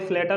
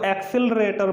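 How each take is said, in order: First: The word is clipped, with its opening syllables dropped. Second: The word is said in full, with every syllable. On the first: This is how many people casually say it. The speaker calls it wrong. "कई लोग बोलते हैं उसको स्लेटर" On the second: This is the proper way to say it. The speaker calls it right. "अच्छे से अगर बोला जाए तो उसको एक्सिलरेटर बोला जाता है"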